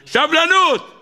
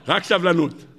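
First: High-pitched cry on סבלנות; exhorting cry. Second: Said in the usual way. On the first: Acted. Preacher urging his listeners to have patience, exhorting cry. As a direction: cry out סבלנות high and drawn, falling at the end.

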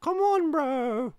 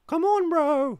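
First: Slow stretched high yell, much louder; drawn-out high shout. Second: Shouted much higher and louder. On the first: Streamer stretching a high yell at his friend. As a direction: drag the yell out long and high. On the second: Streamer yelling high at his friend to come on. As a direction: yell it up high like a whine. Shouting at chat, mock pleading. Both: Acted.

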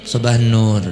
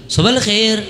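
First: "sabah nur" set low and falling; low answering tone. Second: "Sabahal khair" pitched high; questioning high tone. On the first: Teacher models the reply to a greeting, low falling intonation. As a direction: let "sabah nur" drop as a settled reply. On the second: Teacher models a question for Arabic students, high questioning intonation. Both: Shown as a demonstration. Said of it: "intonasinya atau nadanya itu tinggi".

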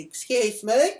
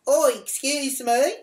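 First: Raised, high call for attention; retold yell, pitched up and loud. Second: High, loud, drawn-out call; emphatic retold holler, slow and high; louder, insistent yell. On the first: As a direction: call out to someone walking off. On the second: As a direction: call again, stretching it out for someone ignoring you. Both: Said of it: "I yelled out".

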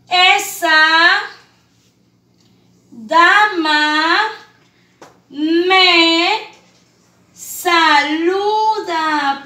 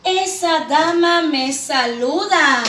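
First: Long pauses between words, loud; spaced reading for children. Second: "Esa dama me saluda" read slowly as one phrase; whole sentence slow and clear; smooth reading. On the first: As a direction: read "Esa dama me saluda" word by word. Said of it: "Qué dice aquí". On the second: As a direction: read it joined, a bit slow. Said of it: "Punto final". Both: Shown as a demonstration.

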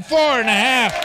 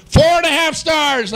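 First: Shouted score. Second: Game show host. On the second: First announcement of the score. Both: Acted.

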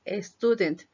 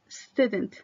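First: Student mispronounced with an added E at the start, "es-tu-dent"; wrong initial E. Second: Student begun straight on the S, no E before it; starts with S. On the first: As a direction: put a Spanish E before the S in student. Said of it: "no inician con E". (student con una E añadida al inicio, "es-tudent") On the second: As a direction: say student with a clean initial S cluster. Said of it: "Iniciamos con S". (student empezando directo con la S, sin E) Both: Shown as a demonstration.

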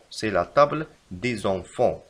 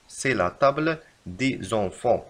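First: Slow, even reread; slow repeat. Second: Very slow correction; slow dictation. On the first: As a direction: repeat it slowly. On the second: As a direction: dictate it slowly. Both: Shown as a demonstration. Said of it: "يجب كتابة".

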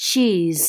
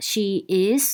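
First: "she's" run together as one syllable; contracted form. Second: "she is" as two separate words; uncontracted form. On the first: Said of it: "ย่อมาจาก". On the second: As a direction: say "she is" in full, "is" on its own. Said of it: "ย่อมาจาก อ่ะ she is". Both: Shown as a demonstration.

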